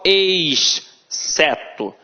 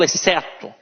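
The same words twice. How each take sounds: First: The x and c are sounded separately. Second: The x and c merge into one quick sound. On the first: The speaker calls it wrong. "eu não falo exceto" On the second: The speaker calls it right. "eu falo exceto. Então a pronúncia é rápida"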